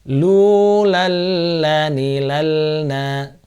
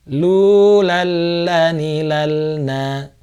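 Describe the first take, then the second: No difference in how they are said.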